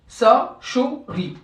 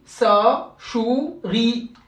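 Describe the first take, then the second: First: SA, SHO, RI with brief vowels; short syllables. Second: SA, SHU, RI with drawn-out vowels; long syllables. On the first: Teacher demonstrating short syllables, brief vowels in "Sa, sho, ri". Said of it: "C'est ça les syllabes courtes". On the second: Teacher demonstrating long syllables, held vowels in "sa, shu, ri". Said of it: "C'est des syllabes longues". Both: Shown as a demonstration.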